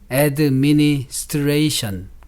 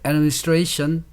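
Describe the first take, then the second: First: Every syllable is said clearly with equal strength. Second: One syllable is stressed and the others are weak. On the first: "pronounced clearly with equal strength, like staccato" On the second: "syllables with accentuation only must be pronounced clearly"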